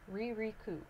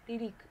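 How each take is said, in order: First: The R sounds are American English Rs. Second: The R sounds are light Japanese tongue taps. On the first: The speaker calls it wrong. "if you are pronouncing it like an American" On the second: The speaker calls it right. "pronouncing it correctly in Japanese"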